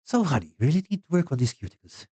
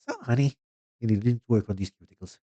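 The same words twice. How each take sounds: First: High, sing-song mock New York manicurist; first go at a New York accent, hammed-up. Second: Second try, high So, honey then settling, stress on work; retry the New York accent, leaning on work. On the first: Manicurist scolding Carl about his cuticles, high mock New York accent. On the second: Pretend. Manicurist scolding Carl about his cuticles, milder mock New York accent. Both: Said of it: "yeah, let's try".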